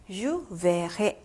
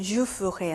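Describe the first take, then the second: First: "verrai" with a full open "e" before the double r; sounded e. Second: "ferai" with the e after f barely sounded; silent e. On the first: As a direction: sound the first vowel of "verrai" clearly. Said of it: "악성이 없더라도 에 발음이 나요". ("verrai"의 첫 e를 '에'로 또렷하게) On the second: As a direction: drop the first vowel of "ferai". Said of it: "여기서는 je ferai 였는데". ("ferai"의 첫 e를 거의 소리 내지 않고) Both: Shown as a demonstration.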